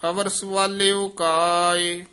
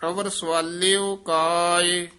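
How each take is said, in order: Both takes have the same delivery.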